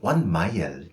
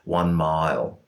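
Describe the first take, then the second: First: Welsh accent with a cleanly articulated vowel. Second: Flat Australian accent with a mushy vowel. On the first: The speaker calls it right. "whereas the Welsh might say one mile" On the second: The speaker calls it wrong. "in my flat Australian accent, a phrase like one mile is a very mushy diphthong"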